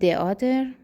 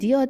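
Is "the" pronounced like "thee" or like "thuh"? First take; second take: thuh; thee. First: "The" is said with a short "uh" vowel. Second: "The" is said with a long "ee" vowel. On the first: The speaker calls it wrong. "نمیگم" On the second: The speaker calls it right. "میگم"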